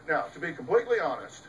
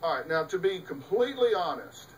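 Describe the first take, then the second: First: Rushed x1.6 throwaway; rattled-off fake candor; quick mock confession. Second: Plain. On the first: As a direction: toss it off fast, like a liar's preface. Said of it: "they say". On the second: Retold or imitated. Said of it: "When somebody says".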